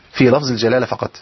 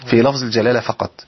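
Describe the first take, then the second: No difference in how they are said.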